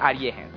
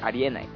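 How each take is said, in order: First: It is said in Kansai dialect. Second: It is said in standard Japanese. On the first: "関西弁でありえへん" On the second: "関東弁でありえない"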